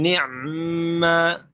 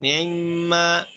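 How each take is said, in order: First: NI'MA with the 'ayn closed and a long held m; no second vowel. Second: NI'IMMA with a brief, light vowel on the 'ayn; ikhtilas. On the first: Teacher showing the alternative reading, closed 'ayn in NI'MA. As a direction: pronounce "ni'ma" slowly, 'ayn straight into mm. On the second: Teacher showing the first reading, ikhtilas on NI'IMMA. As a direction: pronounce "Ni'imma" with a snatched second i. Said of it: "Yang pertama ikhtilas". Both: Shown as a demonstration.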